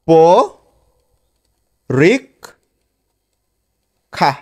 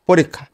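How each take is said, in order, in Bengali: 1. শব্দটি টুকরো টুকরো করে বলা হয়েছে। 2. শব্দটি থামা ছাড়া সহজভাবে বলা হয়েছে।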